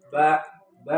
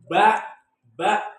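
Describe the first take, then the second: First: The syllable is said gently in a normal way. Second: The syllable is pressed out with heavy force. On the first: The speaker calls it right. "biasa aja" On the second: The speaker calls it wrong. "ada yang ba ba tapi jangan terlalu ditekan"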